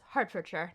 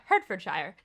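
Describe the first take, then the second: First: The ending is reduced to a short 'shuh'. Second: The ending is said as a full 'shire'. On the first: The speaker calls it right. "it was Hertfordshire" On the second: The speaker calls it wrong. "not Hertfordshire. So the Shire probably doesn't make sense"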